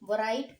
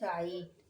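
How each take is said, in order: First: It begins with a w sound. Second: It begins directly with r. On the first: The speaker calls it wrong. "वराइट पढ़ेंगे नहीं" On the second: The speaker calls it right. "इसे हम पढ़ेंगे राइट"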